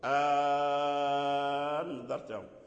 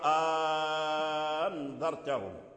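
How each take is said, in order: First: The second glottal stop becomes a long a vowel. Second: The same.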